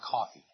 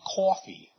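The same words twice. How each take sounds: First: It is said with a standard, non-regional accent. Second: It is said with a New Jersey accent. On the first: "rather than coffee" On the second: "people from New Jersey who drink coffee"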